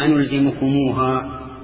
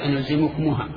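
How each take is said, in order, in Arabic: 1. الميم متصلة بحرف المد الواو الطويل. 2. ليس بعد الميم حرف مد واو طويل. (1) "ضم موصولا للجميع" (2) "ما لا يصح أن تقول"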